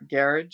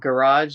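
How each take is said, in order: First: It is said with a non-American pronunciation. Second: It is said with an American pronunciation.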